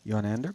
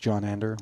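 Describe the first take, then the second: First: The name begins with a Y sound. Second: The name begins with a J sound. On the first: The speaker calls it right. "he explained" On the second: The speaker calls it wrong. "Had been referring to him as"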